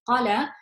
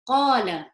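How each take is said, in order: First: The first vowel is short, not stretched. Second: The first vowel is stretched to double length. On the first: The speaker calls it wrong. "you wouldn't read this as qala" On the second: The speaker calls it right. "you would stretch it as two harakats"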